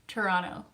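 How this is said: The T sounds are dropped, starting like ch. The speaker is a local. "there's no T's"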